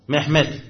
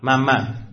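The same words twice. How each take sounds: First: The name is said with a Turkish pronunciation. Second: The name is said with a Persian pronunciation. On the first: "الان ترکیه ها به محمد چی میگن؟" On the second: "ایرانی ها چی میگن؟"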